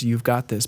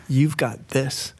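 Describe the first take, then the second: First: "got" stressed as said. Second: Slow, weight on "You've", not on "got"; stress on you've. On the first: Retold or imitated. Quoting God's word to [name], stress on "got". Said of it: "but the accent was on the wrong syllable". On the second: Shown as a demonstration. Recasting the prophecy, stress shifted onto "You've". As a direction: lean on "You've" and drag the line. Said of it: "the accent was on the wrong syllable".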